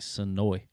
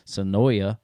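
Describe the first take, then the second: First: The name ends without a final vowel sound. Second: The name ends with an extra vowel sound. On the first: This is how the name is actually said. The speaker calls it right. "I actually pronounce it like Sonoy, like the A is silent" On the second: This is how Southerners tend to say it. The speaker calls it wrong. "we always look at us Southerners, Sonoya"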